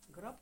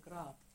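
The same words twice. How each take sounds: First: The vowel is said short. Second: The vowel is said long.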